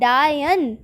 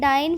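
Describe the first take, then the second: First: The word is said to rhyme with lion. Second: The word is said in its usual way.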